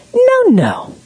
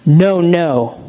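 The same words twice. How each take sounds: First: Very high, cooing "no, no"; gentle playful tone. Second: Flat-out correcting, no sweetness; stern original tone. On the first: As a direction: sing it sweetly to a baby. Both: Shown as a demonstration. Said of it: "same words said differently".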